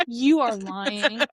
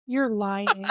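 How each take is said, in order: First: "You" drawn out, the whole phrase slow; emphatic disbelief. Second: Said in the usual way. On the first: Real, not acted. Co-host disbelieving the book recap, slow stress on "You". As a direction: lean long on "You", spacing out "are lying".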